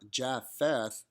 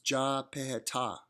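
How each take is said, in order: First: The middle is said with an F sound. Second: The middle is said with separate P and H. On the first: The speaker calls it wrong. "there is no F sound in Hebrew, so the P H in Japheth is not Japheth" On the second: The speaker calls it right. "it's Japhetah"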